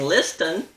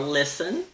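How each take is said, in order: First: The middle T sound is clearly pronounced. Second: The middle T sound is silent. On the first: The speaker calls it wrong. "Otherwise, we'd be hearing listen" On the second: The speaker calls it right. "I can't think of a single person who pronounces the T in these words"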